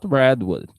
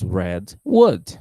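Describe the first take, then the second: First: The stress falls on the word red. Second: The stress falls on the word wood. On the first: The giant sequoia tree. "it's not redwood" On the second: Wood that is red in color. "cherry is red wood"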